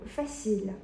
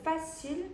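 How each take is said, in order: First: It is said with a more French-sounding pronunciation. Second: It is said with a less French-sounding pronunciation. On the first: The speaker calls it right. "조금 더 프랑스어식으로 발음해보면" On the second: The speaker calls it wrong. "초반에는 뭐 facile, facile 이런 식으로 발음을 했어요"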